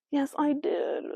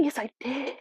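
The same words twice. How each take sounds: First: Said in the usual way. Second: Unvoiced whisper, cheeky; whispered aside. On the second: Real, not acted. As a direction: whisper it like a confession to yourself. Whispered self-confirmation.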